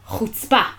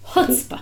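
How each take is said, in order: First: Israeli style, stressed on the second syllable. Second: American style, stressed on the first syllable.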